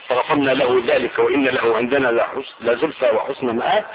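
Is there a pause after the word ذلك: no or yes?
no. The phrase runs on without a pause after ذلك. "وتقرأ بالوسط والوقف"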